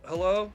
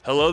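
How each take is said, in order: First: It is said in a lazy, half-asleep way. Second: It is said with lively, enthusiastic inflection. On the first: The person does not care about the caller. The speaker calls it wrong. "someone in a lazy boy and they're kind of halfway asleep" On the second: The person is eager to help the caller. The speaker calls it right. "Little enthusiasm, enthusiasm, voice inflection"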